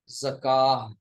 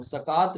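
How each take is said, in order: First: ज़काह ending in a breath of h; final ta as ha. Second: ज़कात ending on a clear t; sounded final t. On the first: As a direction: stop ज़काह on h instead of t. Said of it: "हा बन जाता है". (ज़काह, आख़िर में हा की आवाज़) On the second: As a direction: say ज़कात the Urdu way, with t. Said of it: "अब ज़कात नहीं कहेंगे". (ज़कात, आख़िर में ता की आवाज़) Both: Shown as a demonstration.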